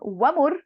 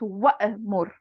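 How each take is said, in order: First: There is no glottal stop before the m. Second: A glottal stop is heard before the m. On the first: The speaker calls it wrong. "It's not wa'mur" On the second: The speaker calls it right. "the hamza sneaks in back"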